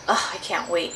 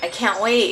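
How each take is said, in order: First: It is said casually, without much excitement. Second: It is said eagerly, with clear excitement.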